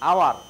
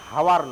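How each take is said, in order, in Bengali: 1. শব্দটি স্বরধ্বনি দিয়ে শুরু, h নেই। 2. শব্দটি h ধ্বনি দিয়ে শুরু। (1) "উচ্চারণটা হাওয়ার নয়" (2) "হাওয়ার নয়, হ, ওটা ব্যঞ্জন বর্ণ"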